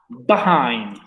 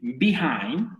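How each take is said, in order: First: The first syllable has an 'a' vowel. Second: The first syllable has an 'i' vowel. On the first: "o con a" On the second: "con i"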